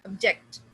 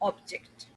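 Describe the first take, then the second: First: The stress is on the second syllable. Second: The stress is on the first syllable. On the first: It is the verb. "If it is a verb तो हम किस पे stress करते हैं? जेक्ट" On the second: It is the noun. "जब हमने first पे stress किया"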